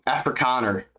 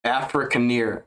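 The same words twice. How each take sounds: First: "Afrikaner" ending in -kah-ner; corrected pronunciation. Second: Slow "Afrikaner" as af-ruh-KAH-ner; careful pronunciation. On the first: Streamer settling the word "Afrikaner", corrected pronunciation. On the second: Streamer correcting himself on "Afrikaner", slow careful pronunciation. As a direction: say "Afrikaner" slowly, syllable by syllable. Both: Shown as a demonstration. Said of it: "Afrikaner is how you pronounce".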